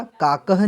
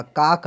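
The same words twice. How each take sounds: First: काकह with an added final "ha" syllable; wrong form demonstrated. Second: Said in the usual way. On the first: Shown as a demonstration. Teacher showing students the wrong answer, pronounced pointedly. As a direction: sound out the extra ह ending in काकह. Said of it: "काकह नहीं आएगा". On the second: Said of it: "काक आ जाएगा".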